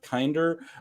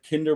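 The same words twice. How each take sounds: First: The word is given an English pronunciation. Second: The word is given a German pronunciation. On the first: The speaker calls it wrong. "It's not kinder" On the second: The speaker calls it right. "the German word Kinder"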